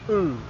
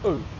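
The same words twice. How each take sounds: First: The vowel is long. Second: The vowel is short. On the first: "they become longer" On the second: "the short vowels in Māori are"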